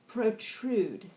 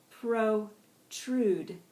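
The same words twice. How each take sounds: First: Said in the usual way. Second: "Protrude" broken into two long, separate syllables; slowed-down pronunciation. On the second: Shown as a demonstration. Teacher modelling "Protrude" for the class, slowly, syllable by syllable. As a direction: split "Protrude" slowly into pro and trude. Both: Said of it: "with varying degrees of speed".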